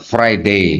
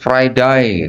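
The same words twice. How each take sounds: First: It is said in a British accent. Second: It is said in an Australian accent. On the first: "Di Inggris orang menyebut hari Jumat Friday" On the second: "Di Australia orang menyebut Friday bukan Friday, Friday gitu"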